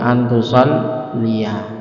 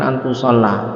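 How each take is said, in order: First: The word ends with a longer '-liya' sound. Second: The word ends with a short '-la' sound. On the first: The speaker calls it right. "harus dibaca nasab jadi antusolliya" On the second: The speaker calls it wrong. "Iku kan tulisan antusolla"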